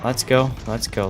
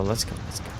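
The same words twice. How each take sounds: First: Said in the usual way. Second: Breathy whisper, much softer. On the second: Real, not acted. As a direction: drop to a hushed whisper. Repeat, then drops to whisper.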